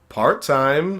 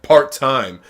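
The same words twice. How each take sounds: First: It is said in a weak, hesitant way. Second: It is said in a confident, strong way. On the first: The speaker calls it wrong. "it's much more like kinda" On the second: The speaker calls it right. "like confident and strong"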